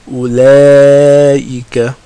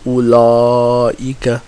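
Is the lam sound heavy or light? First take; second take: light; heavy. First: The lam is pronounced light, tongue back lowered. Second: The lam is pronounced heavy, tongue back raised. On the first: The speaker calls it right. "We say ula, ulaika" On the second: The speaker calls it wrong. "we don't say ulaika... We don't make the lam heavy"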